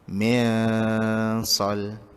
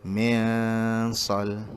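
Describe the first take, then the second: No difference in how they are said.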